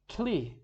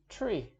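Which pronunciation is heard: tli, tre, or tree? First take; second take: tli; tree. First: It begins with tl instead of tr. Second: It begins with tr and ends in long ee. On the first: The speaker calls it wrong. "If we pronounce it wrong" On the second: The speaker calls it right. "pronounced correctly"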